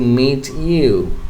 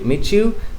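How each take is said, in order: First: The two words are said separately. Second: The words blend into a ch sound. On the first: The speaker calls it wrong. "if you say these words separately" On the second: The speaker calls it right. "the y sound blending, getting blended and creating what j sound like"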